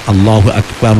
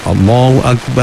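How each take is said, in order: First: The last vowel of akbar is kept short. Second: The last vowel of akbar is drawn out long. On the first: It means God is the greatest. The speaker calls it right. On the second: It means a big drum. The speaker calls it wrong. "tak boleh itu"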